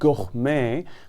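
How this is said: It is said with a native French pronunciation. "that's the native French pronunciation"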